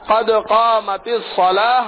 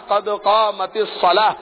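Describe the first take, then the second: Both takes have the same delivery.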